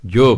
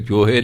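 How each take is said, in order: First: ਜੋ as one short syllable, no ਹ sounded; correct reading. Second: ਜੋਹੇ read with a sounded ਹ and final e; the mistaken ਜੋਹੇ, both syllables; wrong reading. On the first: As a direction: say just ਜੋ, clipped to one syllable. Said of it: "ਜੋ ਪੜ੍ਹਨਾ". (ਸਹੀ ਉਚਾਰਨ ਜੋ) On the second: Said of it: "ਇਹਨੂੰ ਜੋਹੇ ਨਹੀਂ ਪੜ੍ਹਨਾ". (ਗ਼ਲਤ ਉਚਾਰਨ ਜੋਹੇ) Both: Shown as a demonstration.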